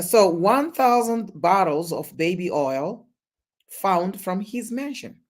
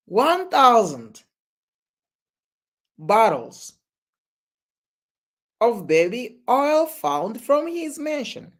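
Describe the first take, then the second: First: Said in the usual way. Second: Incredulous repeat. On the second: Real, not acted.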